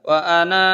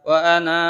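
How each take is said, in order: No difference in how they are said.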